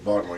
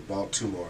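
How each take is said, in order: First: The T sound in the middle is dropped. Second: The T sound in the middle is pronounced. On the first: This is how locals say the city's name. The speaker calls it right. "you gotta say Baltimore. We don't pronounce the T" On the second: This is how outsiders say the city's name. The speaker calls it wrong. "You can't say Baltimore"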